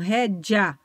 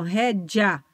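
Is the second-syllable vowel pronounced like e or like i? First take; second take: i; i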